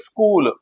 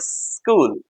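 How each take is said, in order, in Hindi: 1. शब्द की शुरुआत छोटे ई स्वर से होती है। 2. शब्द सीधे सिसकारी वाले स से शुरू होता है। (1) "ई की साउंड आई" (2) "हिसिंग साउंड को बोलेंगे स्कूल"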